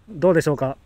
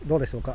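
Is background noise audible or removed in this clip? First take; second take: removed; audible. First: Background noise is filtered out of the voice. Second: Background noise is audible behind the voice. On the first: "これがねノイズキャンセリング入れました。" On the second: "今ねノイズキャンセルなしで話してます。"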